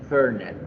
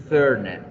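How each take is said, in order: Both takes have the same delivery.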